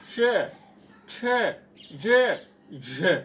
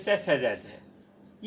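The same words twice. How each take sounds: First: च छ ज झ loud, tongue to the palate; correct pronunciation. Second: च छ ज झ said loosely; wrong pronunciation. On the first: Teacher showing the pure palatals. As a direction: say च, छ, ज, झ crisply from the palate. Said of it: "शुद्ध उच्चारण करेंगे". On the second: Teacher demonstrating the wrong palatals. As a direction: rattle off च, छ, ज, झ carelessly. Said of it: "ये गलत होगा". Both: Shown as a demonstration.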